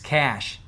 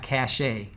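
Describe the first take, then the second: First: It is said as one syllable, like cash. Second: It is said as two syllables, like cashay. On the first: Storage where a browser keeps information. The speaker calls it right. "It's cache" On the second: Prestige or status. The speaker calls it wrong. "It's not cache"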